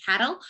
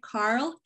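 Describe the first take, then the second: First: "Carol" as a two-syllable attempt at Carl; Scottish-accent struggle. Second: Said in the usual way. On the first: Shown as a demonstration. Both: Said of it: "can't say that with a Scottish accent".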